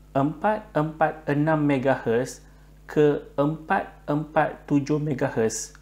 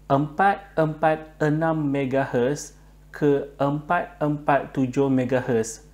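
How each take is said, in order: Both takes have the same delivery.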